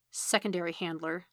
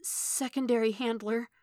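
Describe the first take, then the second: First: Restrained, questioning echo; questioning repetition. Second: Put-on breathed out, higher, small child voice; timid, breathy boyish answer; eleven-year-old voice. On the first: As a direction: repeat it back sceptically. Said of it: "Stick repeated". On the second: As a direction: breathe it like a scared boy. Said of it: "he breathed in that eleven-year-old voice". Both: A narrator's reading.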